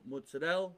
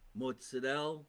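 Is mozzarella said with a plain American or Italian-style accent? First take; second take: American; Italian-style. First: The word has a plain American pronunciation. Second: The word has an Italian-style pronunciation. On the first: The speaker calls it wrong. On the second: The speaker calls it right.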